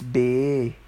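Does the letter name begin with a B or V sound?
B. The letter starts with a B sound. "the letter after U is B instead of"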